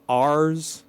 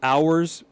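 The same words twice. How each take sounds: First: The vowel is flattened to an 'ar' sound. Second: The vowel is a full 'ow' sound. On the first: "if you have a Utah accent" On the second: "ours become ours"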